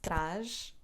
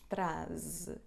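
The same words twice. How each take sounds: First: The word ends with an sh sound. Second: The word ends with a z sound. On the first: "A pronúncia é com sh" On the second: "Porque aqui ligamos traz ideias. Temos Z entre duas vogais"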